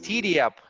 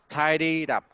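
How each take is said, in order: First: The first word sounds short, like titty. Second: The first word has a long vowel and clear d. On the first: The speaker calls it wrong. "you said titty, titty up, and it's not titties" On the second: The speaker calls it right. "it's not titties, tied it up"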